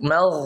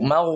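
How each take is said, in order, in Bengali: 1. এই ধ্বনিটি অগোল ঠোঁটে উচ্চারিত হয়। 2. এই ধ্বনিটি গোল ঠোঁটে উচ্চারিত হয়। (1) "ঠোঁট গোল হবে না" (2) "একেবারে এভাবে ঠোঁট গোল করে"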